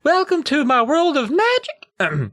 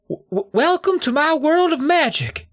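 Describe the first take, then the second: First: High and slow, trying to sound grand; steady the nerves and announce it; slow squeaky announcement. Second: High, stammering squeak; a nervous kid's voice cracking; squeaky nervous voice. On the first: [name] retries his grand stage opening, high and slow. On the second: [name] opens his magic act on stage, squeaking with nerves. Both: Acted. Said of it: "My voice squeaked a little on the word magic".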